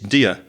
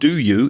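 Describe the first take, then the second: First: The words are reduced and run together. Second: Both words are said fully and clearly. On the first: The speaker calls it right. "it completely changes its pronunciation" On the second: The speaker calls it wrong. "It's not do you"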